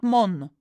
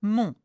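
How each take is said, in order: First: "mon" said wrongly with a sounded n; "mon" as a learner's error, n pronounced; wrong pronunciation. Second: "mon" with a nasal vowel and silent n; "mon" drawn out as a French nasal; correct nasal vowel. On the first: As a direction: demonstrate the mistaken "mon", closing on the n. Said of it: "not mon". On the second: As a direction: model "mon" slowly, never closing the n. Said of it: "not mon, mon temps libre". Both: Shown as a demonstration.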